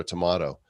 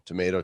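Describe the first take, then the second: First: Tomato said tuh-MAH-toh; broad-a pronunciation. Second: Tomato said tuh-MAY-toh; long-a pronunciation. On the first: Example of differing pronunciations, tomato as tuh-MAH-toh. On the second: Example of differing pronunciations, tomato as tuh-MAY-toh. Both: Shown as a demonstration. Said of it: "everybody pronounces the terms different".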